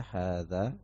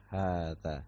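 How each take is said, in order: First: Hadza said with a short first a, clipped; wrong short reading. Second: Hadza said with the first a drawn out long, haadza; correct long reading. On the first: Teacher demonstrating the mistaken short reading of hadza. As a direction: say hadza quickly with no long vowel. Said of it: "Jangan antum baca pendek ya". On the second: Teacher showing students the correct long reading of hadza. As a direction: stretch the first vowel of hadza. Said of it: "seharusnya hadza". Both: Shown as a demonstration.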